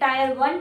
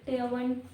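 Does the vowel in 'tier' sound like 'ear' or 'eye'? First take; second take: eye; ear. First: The word 'tier' rhymes with 'tire'. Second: The word 'tier' rhymes with 'ear'. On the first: The speaker calls it wrong. "Sorry टायर नहीं है" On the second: The speaker calls it right. "It is टीयर"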